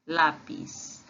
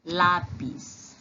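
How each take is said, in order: First: "lápis" repeated as Spanish lápiz. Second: "lápis" said as Spanish lápiz; Spanish pronunciation. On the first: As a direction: echo "lápis". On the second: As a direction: model "lápis" for the class. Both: Shown as a demonstration. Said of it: "Se diz assim, ó".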